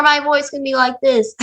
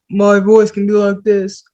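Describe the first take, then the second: First: Pitched up a little, squeaky; squeakier voice. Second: Said in the usual way. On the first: Shown as a demonstration. Showing students a squeakier version of the voice. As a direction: raise it into a squeak. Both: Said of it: "make the p-, squeakier".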